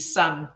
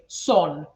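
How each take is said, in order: First: The vowel is pronounced as an 'ah' sound. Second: The vowel is pronounced as an 'o' sound. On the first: The speaker calls it right. "all of those should be" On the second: The speaker calls it wrong. "instead of using that, we use the O"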